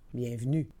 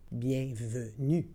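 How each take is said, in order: First: It is said at normal conversational speed. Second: It is said slowly and carefully. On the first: "and then in communicational Canadian French" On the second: "then slowly said in French"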